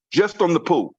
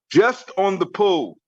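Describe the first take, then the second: First: Said in the usual way. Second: "Just on the pool" slowly, weight on "Just"; slow emphatic repeat. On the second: Real, not acted. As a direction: punch "Just", then stretch out "on the pool".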